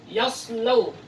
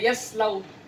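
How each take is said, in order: First: The s sound is heavy and emphatic. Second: The s sound is light and plain. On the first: The speaker calls it right. "Untuk huruf shad" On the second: The speaker calls it wrong. "jangan lagi dibaca yaslau, harus dibedakan"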